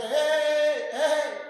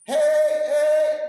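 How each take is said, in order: First: High, loud call imitating a shepherd; mock shepherd's call to the flock; sheep-calling shout, fairly loud; stranger calling sheep. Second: Very loud, high, sung-out call; long ringing shepherd's yell; shepherd's shout. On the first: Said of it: "empezó a gritarle como el pastor". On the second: Retold or imitated. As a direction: bellow to the flock like the real shepherd. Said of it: "le levanta la voz y empieza a gritar".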